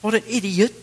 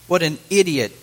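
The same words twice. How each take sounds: First: It is said in an English accent. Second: It is said in the speaker's ordinary accent.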